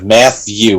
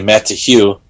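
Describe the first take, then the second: First: The T and H blend into one sound. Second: The T and H are said separately. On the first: "Matthew with a T H" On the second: "you break it off to T H E W"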